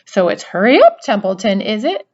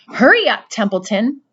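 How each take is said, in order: First: Mocking, louder Wilbur imitation; imitating Wilbur. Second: High, loud hurried urging; urgent plea. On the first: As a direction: parody the pig's urgency. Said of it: "He began imitating Wilbur's voice". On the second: A narrator's reading. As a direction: push him to hurry. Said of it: "said Wilbur".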